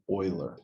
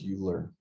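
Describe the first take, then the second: First: The name is not read the way it looks. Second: The name is read the way it looks. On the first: The speaker calls it right. "It is Euler" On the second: The speaker calls it wrong. "I know it might look like Euler, but it is not"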